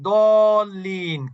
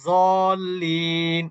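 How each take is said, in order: First: The word begins with a d sound. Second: The word begins with a z sound. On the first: No one will object to it. The speaker calls it right. "কেউ কিছু বলবে না" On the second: Listeners will object to it. The speaker calls it wrong. "তাহলে কিন্তু ধরে বসবে পিছন থেকে"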